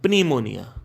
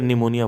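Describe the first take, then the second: First: The word begins with a sounded P. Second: The word begins without any P sound. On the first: "आप निमोनिया को पिमोनिया बोलो" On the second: "क्योंकि पी silent है। या फिर निमोनिया बोलो"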